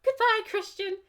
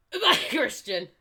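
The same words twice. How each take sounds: First: Loud, high goodbye; hammed-up, high-pitched farewell; high-voiced farewell. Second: Mock tearful goodbye, loud and laughing; hammed-up choked-up farewell; hoarse with tears. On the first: Acted farewell, first take. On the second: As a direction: push out a strained farewell through laughter. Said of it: "My voice is hoarse from, uh, unbidden". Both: A narrator's reading.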